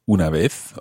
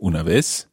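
First: It is said in a Spain Spanish pronunciation. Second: It is said in a Latin American pronunciation.

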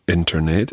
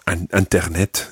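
First: It is said with English pronunciation. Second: It is said with French pronunciation. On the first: "we're used to saying Internet in English" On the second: "or Internet in French"

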